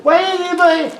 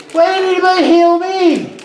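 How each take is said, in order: First: High pixie voice; squeaky sprite asking; pixie whine. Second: High pixie voice, louder; squeaky sprite pleading; pixie whine. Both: Acted. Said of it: "a little voice".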